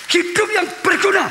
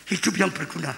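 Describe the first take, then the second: First: "Hidup yang berguna" shouted high and loud; preached shout. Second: Said in the usual way. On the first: Acted. Pastor to congregation, shouting the key phrase. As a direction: hammer home "berguna" with full voice. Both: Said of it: "repeated louder".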